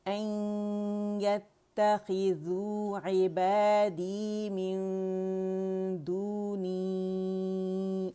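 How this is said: The recitation flows on, stretching the final vowel. "अब रवानी में बनेगी मद मुनफसिल"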